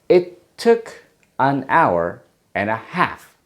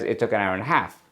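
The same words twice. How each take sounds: First: Each word is said separately with small breaks. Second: All the words are linked smoothly together.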